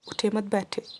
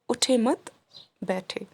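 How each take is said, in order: First: The sentence is said with no pause inside. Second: The sentence is said with a pause inside. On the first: It is unclear whether to sit or stand. The speaker calls it wrong. "So you will be a bit confused whether the teacher is saying to sit down or to get up" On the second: The listener should sit down rather than get up. The speaker calls it right. "if I repeat the same sentence with a bit of pause in it"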